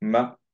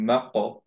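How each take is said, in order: First: The doubled k is held without any bounce. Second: The first k is released with an echoing bounce. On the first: The speaker calls it right. "এটাকে পড়লাম হচ্ছে মা ক এভাবে" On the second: The speaker calls it wrong. "মাক ক এরকম দিব না"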